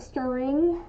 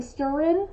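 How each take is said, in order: First: Said in the usual way. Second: "stirrin'" ending in a plain n, no g; dropped g. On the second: Shown as a demonstration. Crafter showing own local speech habit, dropped g. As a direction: say "stirrin'" with "in" for "ing". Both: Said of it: "saying in instead of ing".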